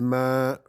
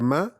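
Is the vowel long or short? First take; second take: long; short. First: The vowel is long, held for two beats. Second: The vowel is short, held for one beat. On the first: "c'est ma" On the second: "ce n'est pas ma"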